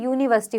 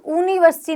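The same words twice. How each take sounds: First: यूनिवर्सिटी said as yoo-niversity with a clear y; correct yu sound. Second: यूनिवर्सिटी said as oo-niversity, no y sound; wrong oo sound. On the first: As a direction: begin यूनिवर्सिटी with a y glide. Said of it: "क्या होता है?". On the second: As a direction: start यूनिवर्सिटी with a bare oo vowel. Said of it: "यूनिवर्सिटी नहीं होता है". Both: Shown as a demonstration.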